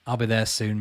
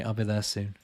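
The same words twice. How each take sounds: First: Said in the usual way. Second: Put-on much softer and lower, fading away like a crumbling old man; faint, fading mock-old voice. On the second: To a viewer born the year he was, as if fading away to dust, softer and lower. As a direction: let the repeat die away, as if turning to dust.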